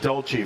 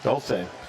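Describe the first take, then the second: First: The name is said with the Italian pronunciation. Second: The name is said without the Italian pronunciation. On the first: The speaker calls it wrong. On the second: The speaker calls it right.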